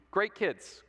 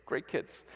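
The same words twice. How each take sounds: First: Said in the usual way. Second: Put-on whispered great kids; whispered aside. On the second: Shown as a demonstration. Preacher whispers praise to the kids. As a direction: drop to a whisper.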